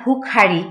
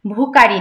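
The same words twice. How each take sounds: First: ভুখারি with a breathy kh; aspirated kh. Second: ভুখারি said as bhukari, plain k; unaspirated k. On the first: Teacher corrects to ভুখারি, kh aspirated. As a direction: release air on খ in ভুখারি. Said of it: "খ আছে এখানে". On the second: Teacher shows learners the mistake, bhukari with k. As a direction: drop the breath from খ in ভুখারি. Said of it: "ভুখারি না". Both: Shown as a demonstration.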